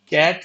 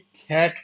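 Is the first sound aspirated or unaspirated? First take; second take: unaspirated; aspirated. First: The first sound has no puff of air. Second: The first sound has a puff of air. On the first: The speaker calls it wrong. "कैट नहीं" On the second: The speaker calls it right. "के सी की जगह खा बोलना है"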